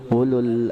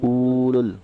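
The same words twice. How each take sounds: First: The first vowel is kept short. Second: The first vowel is drawn out long. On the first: The speaker calls it right. "tapi langsung ke ulul albab" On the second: The speaker calls it wrong. "nah itu salah"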